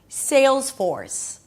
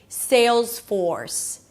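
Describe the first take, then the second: No difference in how they are said.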